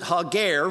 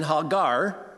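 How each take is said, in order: First: The second vowel sounds like an 'e'. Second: The second vowel sounds like an 'a'. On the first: "if you change the second A in her name to an E and pronounce it" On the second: "rather than Hagar"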